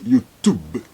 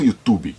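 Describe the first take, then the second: First: YouTube ending on b, no final vowel; English YouTube. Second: YouTube said as utubi with an added i; Brazilian YouTube. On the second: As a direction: add a vowel after YouTube. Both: Shown as a demonstration. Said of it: "não YouTube".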